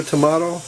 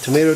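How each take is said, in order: First: "tomato" as to-MAH-to; broad-a pronunciation. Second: "tomato" as to-MAY-to; long-a pronunciation. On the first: Joking about either pronunciation, "tomato" as to-MAH-to. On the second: Joking about either pronunciation, "tomato" as to-MAY-to. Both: Shown as a demonstration. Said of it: "however it's pronounced".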